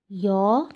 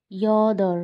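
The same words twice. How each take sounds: First: ইয়দর split as "yo", long pause, "dor"; syllable by syllable. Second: Said in the usual way. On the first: Shown as a demonstration. Teacher showing learners Korean eight, ইয়দর broken in two.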